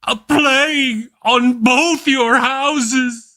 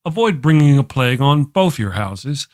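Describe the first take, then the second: First: High, slow, grand stage cry on "A plague on both your houses!"; Shakespearean declamation. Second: Said in the usual way. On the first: Acted. Host quoting Shakespeare to viewers, slow grand stage declamation. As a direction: curse it like a dying tragic actor.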